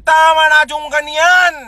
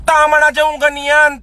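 First: Fed-up shout. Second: Said in the usual way. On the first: Real, not acted. Telling commenters to stop, in a fed-up shout. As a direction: bark it out, done with it.

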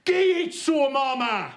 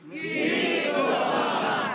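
First: High, loud Black Country shout of the phrase; Black Country call. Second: Black Country phrase again. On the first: Comic teaching the crowd a Black Country phrase, loud high call. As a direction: belt it out in broad Black Country. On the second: Comic repeating the phrase for the crowd, high call. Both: Shown as a demonstration. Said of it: "Repeat after me".

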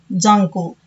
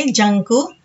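First: జంకు as the second take, falling at the end; contrasted pronunciation. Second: జంకు as the first take, rising at the end; contrasted pronunciation. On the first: Teacher contrasting old and new sounds, జంకు with falling end. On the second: Teacher contrasting old and new sounds, జంకు with rising end. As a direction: sound out జంకు slowly with a lifted ending. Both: Shown as a demonstration. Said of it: "ఇలా వీటిని పలుకుతున్నాము".

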